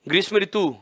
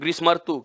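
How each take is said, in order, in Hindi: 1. बीच में पूरा 'ri' अक्षर है। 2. बीच में सिर्फ 'r' ध्वनि है।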